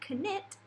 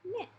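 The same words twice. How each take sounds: First: A k sound is spoken before the n. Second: The word starts straight with the n sound. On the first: The speaker calls it wrong. "you don't say knit" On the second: The speaker calls it right. "you just say knit"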